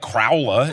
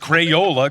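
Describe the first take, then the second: First: The first syllable sounds like 'crow', squeezed short. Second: The first syllable sounds like 'cray', fully pronounced. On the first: The speaker calls it wrong. "you don't call it like Crowla" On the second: The speaker calls it right. "It's Crayola crayon"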